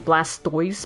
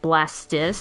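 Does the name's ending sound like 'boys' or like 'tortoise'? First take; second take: boys; tortoise. First: The ending is said with an 'oys' sound. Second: The ending is said with an 'is' sound.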